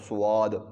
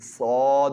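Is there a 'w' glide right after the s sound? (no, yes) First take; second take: yes; no. First: A 'w' glide follows the s sound. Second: No 'w' glide; a rounded, heavy vowel follows. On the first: The speaker calls it wrong. "पढ़ते हैं ना अक्सर स्वाद, ये स्वाद नहीं होता" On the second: The speaker calls it right. "बल्कि सौद होता है"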